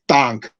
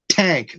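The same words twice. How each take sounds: First: The t is released with no puff of air. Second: The t is released with a puff of air. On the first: "They actually kind of breathe in or don't breathe" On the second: "We say t, we breathe out when we say T"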